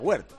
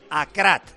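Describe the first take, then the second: First: The surname is said with a 'w' sound. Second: The surname is said with a 'k' sound. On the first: The speaker calls it wrong. "no se pronuncia Huert" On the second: The speaker calls it right. "que se pronuncia Nayef Akrat"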